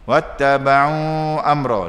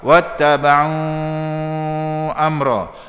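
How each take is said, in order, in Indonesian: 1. Mad dibaca dua harakat. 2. Mad dibaca empat harakat. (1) "Nak baca dua" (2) "Nak baca cepat"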